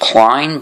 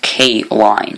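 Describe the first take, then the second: First: It is said as one syllable, without a gap. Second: It is said as two parts with a gap. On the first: The speaker calls it wrong. "thought that this that this was pronounced Klein" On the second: The speaker calls it right. "there's a bit of a gap in between them"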